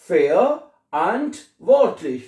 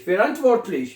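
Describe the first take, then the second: First: "verantwortlich" slowly as fe-a, ant, vort-lich; long gaps between the parts of "verantwortlich"; teacher pulling "verantwortlich" apart syllable by syllable; broken into parts. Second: Said in the usual way. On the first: Shown as a demonstration. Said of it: "पहले लफ्ज को तोड़ लें". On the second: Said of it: "बाद में इसको इकट्ठा कर देना".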